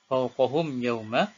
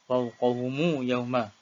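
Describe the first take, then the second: First: The m ends without a vowel before yauma. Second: A short u vowel links the m to yauma. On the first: "baca dengan sukun"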